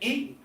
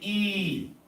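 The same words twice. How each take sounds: First: The vowel is short and clipped. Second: The vowel is drawn out long. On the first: "Instead of saying" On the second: "how do we say"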